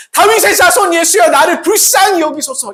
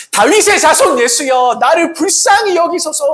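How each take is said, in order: First: High, loud desperate cry. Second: High, loud desperate plea; crying out. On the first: Bartimaeus crying out to Jesus, loud desperate cry. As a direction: shout for mercy with everything. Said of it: "이렇게 외치며 나갔던 것입니다". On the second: Blind beggar crying out to Jesus, loud plea. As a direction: cry out to Jesus for mercy. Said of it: "그는 반복해서 외쳤습니다". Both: Acted.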